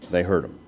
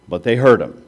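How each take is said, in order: First: Softer, lower echo of They heard him; a quiet awed repeat; hushed echo. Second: Said in the usual way. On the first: Shown as a demonstration. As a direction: let it sink in quietly.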